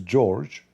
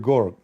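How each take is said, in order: First: The name begins with a soft J sound. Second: The name begins with a hard G sound.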